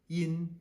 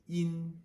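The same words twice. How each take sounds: Both takes have the same delivery.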